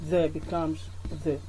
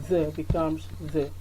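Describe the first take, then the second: Both takes have the same delivery.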